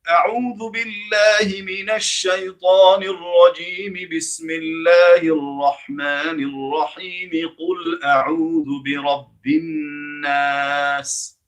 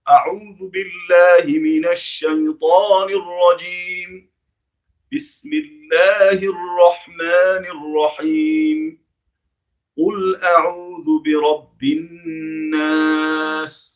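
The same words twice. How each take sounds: First: All phrases run together without pauses between them. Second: Each phrase is separated from the next by a pause.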